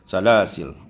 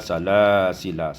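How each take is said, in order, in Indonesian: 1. Kata itu berakhir pada l mati, tanpa vokal. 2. Kata itu berakhir dengan vokal pendek setelah l. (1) "iskan lam hazful alif" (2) "ketika wasal dibaca salasila"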